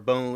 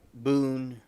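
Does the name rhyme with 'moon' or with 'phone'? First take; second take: phone; moon. First: The vowel sounds like the one in 'phone'. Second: The vowel sounds like the one in 'moon'. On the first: The speaker calls it wrong. "I'm calling it Bone" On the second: The speaker calls it right. "it's probably Boone. It's probably r- correct pronunciation"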